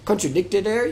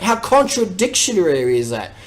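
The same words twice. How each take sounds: First: Softer, unsure "Contradictory" with a questioning rise; self-correction. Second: Says "contradictionary" as one run-on made-up word; wrong word. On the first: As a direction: checks "Contradictory" as a quiet question to himself. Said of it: "Is that a fucking word?". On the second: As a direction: stumbles into "contradictionary" with no pause. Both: Real, not acted.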